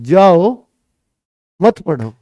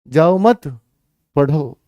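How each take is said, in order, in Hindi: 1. ठहराव पहले शब्द के ठीक बाद आता है। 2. ठहराव दूसरे शब्द के ठीक बाद आता है। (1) "उस बच्चे ने इसका मतलब ये कहा" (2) "उल्टा ही कह रहे थे बिल्कुल"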